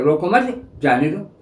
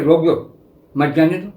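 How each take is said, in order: First: The pause comes after 'mat'. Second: The pause comes after 'roko'.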